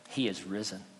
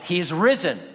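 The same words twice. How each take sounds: First: It is said at a normal speaking volume. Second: It is shouted loudly with high energy. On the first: "Did he say" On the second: "Did he shout it?"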